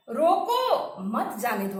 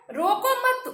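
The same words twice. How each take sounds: First: "रोको" stretched, a break, then "मत जाने दो"; pause after रोको. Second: "रोको मत" joined and pitched high, then a break; pause after मत. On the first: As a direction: split it slowly as "रोको, मत जाने दो". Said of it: "दूसरे". ("रोको" पर रुककर, फिर "मत जाने दो") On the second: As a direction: keep "रोको मत" together, loud and high, stop after मत. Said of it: "तीसरा वाक्य क्या कर रहा है". ("रोको मत" साथ में ऊँचे स्वर में, फिर विराम) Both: Shown as a demonstration.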